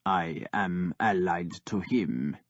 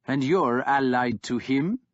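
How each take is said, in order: First: Flat, low and slow; toneless. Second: Rising, disbelieving; scornful warlord asking Ivar; incredulous question. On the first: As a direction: say it with no feeling at all. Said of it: "Ivar said tonelessly". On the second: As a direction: ask it as if it can't be true. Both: Acted.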